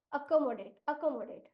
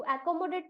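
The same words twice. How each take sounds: First: Accommodate starting with a short "uh"; corrected pronunciation. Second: Accommodate starting with "ae" as in cat; child's uncorrected pronunciation. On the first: Shown as a demonstration. Teacher has the pupil fix the word, corrected pronunciation. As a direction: say accommodate as "uh-ko-mo-date", twice. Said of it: "थोड़ा सा correct कर लो इसको". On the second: Retold or imitated. Teacher quotes back the pupil's reading, uncorrected pronunciation. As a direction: say accommodate as "ae-ko-mo-date". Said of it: "अच्छा तू accommodate तो पढ़ रहा है".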